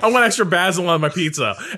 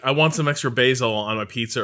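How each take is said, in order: First: It is said in a posh British accent. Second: It is said in a plain American accent.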